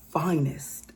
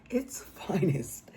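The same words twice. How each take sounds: First: Said in the usual way. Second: Slow, breathless whisper; sarcastic whisper. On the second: Real, not acted. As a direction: drop to a hushed, sarcastic whisper. Whispered repeat of the phrase.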